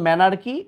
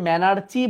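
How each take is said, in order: First: The word is said with a 'k' sound. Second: The word is said with a 'ch' sound. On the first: The speaker calls it right. "But উচ্চারণ ম্যানার্কি" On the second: The speaker calls it wrong. "আগের বইয়ে ম্যানার্চি বলতো"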